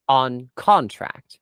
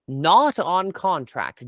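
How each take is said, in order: First: Slow, deliberate "on contract"; stress on CONTRACT. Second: Slow "not on contract", NOT punched; stress on NOT. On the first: Negotiator to former employer about Mandan, slow stress on "on contract". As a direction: set "on contract" apart, each word weighed. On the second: Negotiator challenging the unpaid attack, NOT drawn out and stressed. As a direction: hit NOT hard, then spell out "on contract". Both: Acted.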